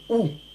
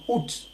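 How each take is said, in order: First: The final T is silent. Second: The final T is pronounced. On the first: "se prononce avec le T muet. On dit ou" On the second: "certains Français prononcent le T final en disant août"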